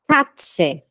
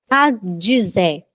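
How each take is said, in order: First: The word is pronounced in a native-like way. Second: The word is pronounced in a distorted way. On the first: The speaker calls it right. "cem por cento, muito bom" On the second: The speaker calls it wrong. "vou falar errado agora"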